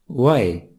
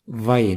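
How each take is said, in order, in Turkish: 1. Zazaca ünsüz sesiyle başlar. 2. Türkçedeki v sesiyle başlar.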